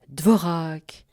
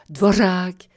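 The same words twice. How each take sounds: First: The r gets no special shaping. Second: The r is a trill with a hiss. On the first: "uniquement à la syncope, sans vous préoccuper du R" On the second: "en rehaussant la langue... Ça va chointer tout seul"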